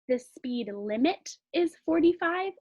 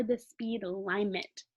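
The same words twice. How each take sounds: First: LIMIT said normally, "LIM-it", at a measured pace; short I. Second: LIMIT misread as "LIE-mit", slowly; long I. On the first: Teacher testing which makes sense, short I. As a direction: test LIMIT with a short i in a sentence. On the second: Teacher testing which makes sense, long I. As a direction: test LIMIT with i like "eye". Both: Shown as a demonstration. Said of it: "try out both ways".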